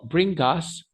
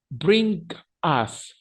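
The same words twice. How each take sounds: First: "Bring us" run together as "bringas"; linked words. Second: "Bring us" as two detached words; separated words. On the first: Teacher showing learners the linking, "Bring us" as one word. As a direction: glue "us" onto the g of "Bring". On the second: Teacher first showing each word alone, "Bring / us" separated. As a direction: leave a clear gap between "Bring" and "us". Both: Shown as a demonstration. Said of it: "pero lo pego".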